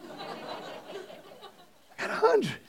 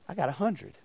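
First: Slow, higher, laughing through it. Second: Said in the usual way. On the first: Real, not acted. Preacher telling students about his perfect quiz score, laughing slowly. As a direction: savor the punchline, laughing. Punchline repeated while laughing.

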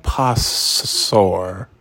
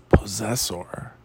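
First: "Possessor" said slowly as POSS-sor; literal misreading. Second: Said in the usual way. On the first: Shown as a demonstration. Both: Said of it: "how do you say that".

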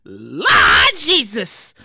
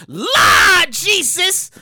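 First: Slow, low, loud groan of Lord Jesus; a slow low holler; exclaiming. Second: Loud, slow drawn-out cry to the Lord; slow, loud holler of Lord Jesus; exclaiming. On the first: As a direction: drag it out low and heavy. Repeated exclamation. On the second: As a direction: call out to heaven in shock. Exclamation at sentence. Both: Real, not acted.

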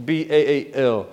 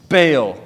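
First: B A A L spelled letter by letter, quieter. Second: Baal spoken as a word, falling; name said. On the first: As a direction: spell out B A A L, each letter apart. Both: Shown as a demonstration.

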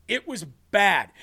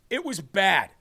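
No difference in how they are said.

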